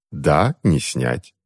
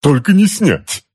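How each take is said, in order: First: Unmoved confirmation. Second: High, slow, strained complaint; anguished wail. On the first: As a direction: confirm it slowly, without any sympathy. Aunt answers him calmly. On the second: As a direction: wail it, stretched out and pitched up. Uncle wails about the suit. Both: A narrator's reading.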